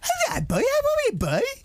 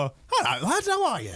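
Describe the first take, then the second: First: It is said in a cooing baby-talk voice. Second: It is said in a plain normal voice.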